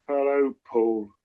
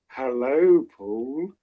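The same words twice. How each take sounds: First: It sounds weary and exasperated. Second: It sounds smitten and affectionate.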